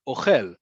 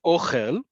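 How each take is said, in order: First: "ochel" stressed on the end, o-KHEL; second-syllable stress. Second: "ochel" stressed on the O, OH-khel; first-syllable stress. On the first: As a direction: land on the last syllable of "ochel", falling. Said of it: "is it on the second one". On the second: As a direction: hit the first syllable of "ochel", ending on a rise. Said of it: "emphasis on the first syllable". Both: Shown as a demonstration.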